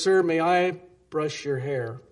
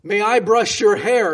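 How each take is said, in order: First: Said in the usual way. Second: Loud, higher shout into a deaf man's ear; screaming into his ear. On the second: Retold or imitated. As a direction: yell it so the old man hears. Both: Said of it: "she screams in his ear".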